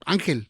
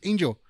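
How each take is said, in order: First: The name is said with Spanish pronunciation. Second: The name is said with English pronunciation. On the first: "in Spanish, it's like" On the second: "in English, it's"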